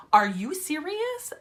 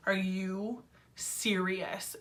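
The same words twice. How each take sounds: First: Higher, rising indignant question; mock outrage, pitched up at the end; retold mad disbelief. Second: Slow, softer, drawn-out disbelief; disbelieving inner voice. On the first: Patient retelling her reaction to the doctor, indignant disbelief. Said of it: "I was so mad when she told me that". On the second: Retold or imitated. Retelling her thought at the doctor's news, slow disbelief. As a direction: stretch it out quietly, stunned retelling. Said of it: "my mind was just like".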